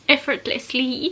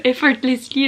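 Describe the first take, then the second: First: Effortlessly dragged out slowly, syllable by syllable; slow careful attempt at effortlessly; struggling English word. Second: Retry effortlessly, slow and pushed; second try at English. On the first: Bloggeuse qui bute sur un mot anglais, lente et appliquée. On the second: Elle retente le mot anglais, plus fort et lente. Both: Shown as a demonstration. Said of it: "j'arrive pas à le dire".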